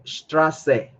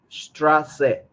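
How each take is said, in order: Both takes have the same delivery.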